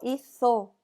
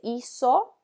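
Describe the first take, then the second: First: The z is said with a th sound. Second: The z is said with an s sound.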